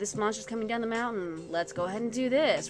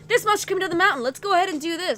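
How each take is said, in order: First: It is said in a bored, weary tone. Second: It is said in an excited, urgent tone. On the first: The character is tired of the same old danger. The speaker calls it wrong. "giving this person an attitude as if, okay, here we go again" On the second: The danger feels real and pressing. The speaker calls it right. "Like a totally different voice"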